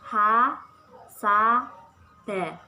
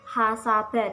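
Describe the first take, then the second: First: Each syllable is separated by a short pause. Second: The syllables run together without any break. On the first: The speaker calls it wrong. "tidak boleh" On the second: The speaker calls it right. "harus langsung dibaca"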